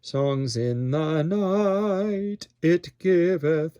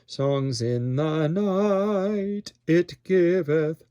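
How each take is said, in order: First: A glottal stop separates 'night' from 'it'. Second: The same.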